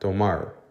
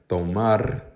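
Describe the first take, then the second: First: The final R is an English-style R. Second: The final R is a Spanish-style R. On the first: "they'll say it as if they're saying A R the same way that A R would sound in English" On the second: "instead of saying tomar"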